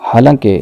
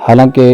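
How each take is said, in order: No difference in how they are said.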